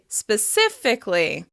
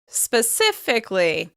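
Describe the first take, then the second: First: The vowel before the ly ending is dropped. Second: The vowel before the ly ending is dropped.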